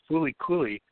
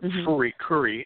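First: The title is said with English sounds. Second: The title is said with Japanese sounds.

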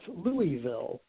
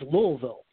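First: Louisville is said the way a Connecticut native says it. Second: Louisville is said the way locals in the region say it. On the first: The speaker is an outsider to the region. The speaker calls it wrong. "when I grew up in Connecticut, if somebody asked me about that, I would say" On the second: The speaker knows the area like a local. The speaker calls it right. "now that I live in Cincinnati, I know it's not Louisville. It's Louisville"

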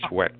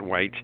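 First: The name has a short e and a k sound. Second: The name rhymes with bite, with no k sound. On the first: The speaker calls it right. "Pronounce the C-H like a K" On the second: The speaker calls it wrong.

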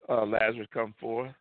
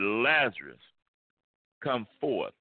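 First: The call is said softly and timidly. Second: The call is said loudly and forcefully. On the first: The speaker lacks confidence in his power. The speaker calls it wrong. "he didn't say" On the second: The speaker is sure of his power. The speaker calls it right. "he says in a strong voice"

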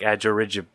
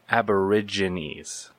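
First: The word is said quickly at normal speed. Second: The word is said slowly and carefully. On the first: The speaker calls it wrong. "if I try to say it regularly, I say something like" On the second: The speaker calls it right. "got to say it slowly"

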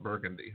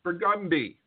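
First: It has the common, everyday pronunciation. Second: It has the local street-name pronunciation. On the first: This is how the word is usually said. The speaker calls it wrong. "It's not Burgundy" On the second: This is how the street name is said locally. The speaker calls it right. "It's Burgundy"

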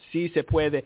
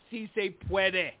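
First: It is said with a Spanish accent. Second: It is said with an American English accent. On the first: The speaker calls it right. "Actually, it's C-C-Puede" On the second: The speaker calls it wrong. "I said it with an American accent"

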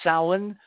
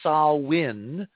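First: The first syllable rhymes with cow. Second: The first syllable is a plain 'sah' sound. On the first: "like a female pig in" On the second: "Sa-win like Saha"

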